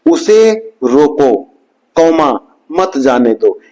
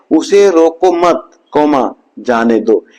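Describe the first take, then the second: First: "उसे रोको", pause, then "मत जाने दो"; pausa após ROKO. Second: "उसे रोको मत" as one unit, pause, then "जाने दो"; pause after MAT. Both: Shown as a demonstration. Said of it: "एक कौमा का अंतर है".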